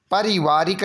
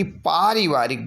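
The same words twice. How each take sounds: First: पारिवारिक starting with short pa. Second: पारिवारिक with a stretched paa; long aa. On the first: Teacher showing the error, पारिवारिक with short pa. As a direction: keep the first vowel of पारिवारिक brief. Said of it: "नहीं बल्कि". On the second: Teacher correcting the spelling, पारिवारिक with long paa. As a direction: hold the first vowel of पारिवारिक. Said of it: "बड़ा पा होगा". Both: Shown as a demonstration.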